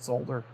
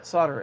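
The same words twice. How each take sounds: First: Solder is said with the L sound. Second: Solder is said without the L sound.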